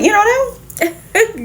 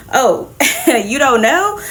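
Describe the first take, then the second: First: Know jumps much higher in disbelief; high incredulous mock question; mock incredulity. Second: Slow, giggling through the teasing question; slow laughing mock surprise; laughing tease. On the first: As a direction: squeak the know in shock. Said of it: "Captain Marvel was like". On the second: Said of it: "they drop the bombshell".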